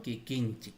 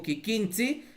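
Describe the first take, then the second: First: Kikinchik with ch and final k; "kikinchik" lower, ending on a stopped k; written form with k. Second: Kikinchi with "tsi" ending, no k; "kikinchi" ending in an open ts-i; spoken form without k. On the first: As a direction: say kikinchik, closing on k. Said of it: "entonces vas poniendo kikinchik". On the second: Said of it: "Por más que digo kikinchi". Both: Shown as a demonstration.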